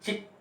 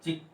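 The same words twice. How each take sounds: First: चिक said as "cheek", long ee. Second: चिक with a short i; "चिक" as in a baby hen, short i. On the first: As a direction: stretch the vowel of चिक into ee. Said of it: "यहाँ पे बड़ी". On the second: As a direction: keep the vowel in चिक short. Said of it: "छोटी". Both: Shown as a demonstration.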